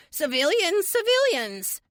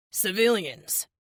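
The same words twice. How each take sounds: First: Loud, squeaky-high mimicry; mock high-pitched. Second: Said in the usual way. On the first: A narrator's reading. Teammate mocks his leader over comms, mock high-pitched. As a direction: parrot him in a much higher, louder voice. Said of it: "in a mock high-pitched voice".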